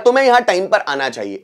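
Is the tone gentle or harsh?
gentle. It sounds like gentle advice.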